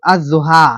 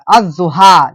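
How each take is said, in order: First: अज़्ज़ुहा said az-zuha with doubled ज़; demo pronunciation. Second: अज़्ज़ुहा as az-zuha, doubled ज़, lam dropped; demo pronunciation. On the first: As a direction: lam left silent in अज़्ज़ुहा. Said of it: "अरबी में पढ़े होंगे". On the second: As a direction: join alif straight to the doubled ज़ in अज़्ज़ुहा. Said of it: "पहले वाला से क्या कर देंगे". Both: Shown as a demonstration.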